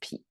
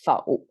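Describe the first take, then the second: First: The syllable sounds like pi. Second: The syllable sounds like fou. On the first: It means the situation is going against you. "in this particular phrase, it's somehow, somehow pronounced as 痞" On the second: It means negating or disagreeing with something. "Normally, this word pronounced as 否"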